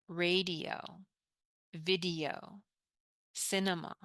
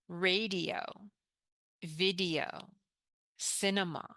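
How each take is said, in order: The two takes are said the same way.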